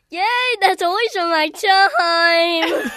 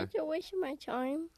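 First: It is said in a very happy tone. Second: It is said in a sad tone.

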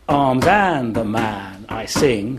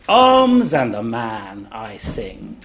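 First: The first word arms is unstressed. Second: The first word arms is stressed. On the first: The speaker calls it wrong. "We don't say it in five iambs" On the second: The speaker calls it right. "we begin it with a dactyl"

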